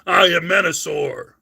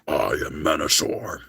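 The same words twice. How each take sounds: First: The voice sounds weak and unintimidating. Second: The voice sounds menacing and intimidating. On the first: The speaker calls it wrong. "That's how he sounded. He didn't sound intimidating" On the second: The speaker calls it right. "Can you do this?"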